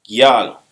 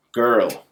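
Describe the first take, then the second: First: "gyal" loud, with a gy glide and open a; patois pronunciation. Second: Put-on "girl" with an English er vowel; English pronunciation. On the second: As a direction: say "girl" with no y glide. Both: Shown as a demonstration. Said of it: "is a correct word in English".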